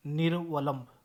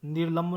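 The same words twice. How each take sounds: First: निर्वलंब with 'va' sounded out; correct pronunciation. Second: निर्लंब without the 'va' syllable; wrong pronunciation. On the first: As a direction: give निर्वलंब its 'nir-va-lamb' syllables. (निर्वलंब में व का साफ़ उच्चारण) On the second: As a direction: skip व in निर्लंब. (निर्लंब, छोटा गलत रूप) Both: Shown as a demonstration. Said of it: "निर्लंब नहीं".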